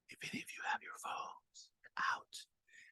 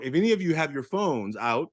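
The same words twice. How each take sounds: First: It is spoken in a whisper. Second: It is spoken in a normal voice.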